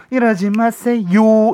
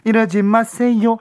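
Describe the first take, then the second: First: 이러지 마세요 sung evenly like a nursery rhyme; 이러지 마세요 with a long drawn tail; children's song style. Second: 이러지 마세요 cut short, staccato; 이러지 마세요 clipped with no tail. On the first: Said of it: "너무 동요 같으니까". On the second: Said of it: "스타카토처럼 툭 끊어야 돼요". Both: Shown as a demonstration.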